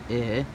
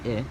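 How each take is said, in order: First: The vowel is drawn out slightly longer. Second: The vowel is said short and quick. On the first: "two of them together would be I" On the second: "one I would be pronounced I"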